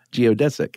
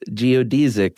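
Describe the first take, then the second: First: Stressed DESS in "geodesic"; American "geodesic". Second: Stressed DEE in "Geodesic"; "Geodesic" with long ee. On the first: Shown as a demonstration. Giving the version used in America, "geodesic" said geo-DESS-ick. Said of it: "or in America". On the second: Retold or imitated. Quoting the lady they looked up, "Geodesic" said geo-DEE-zick. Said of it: "The lady said".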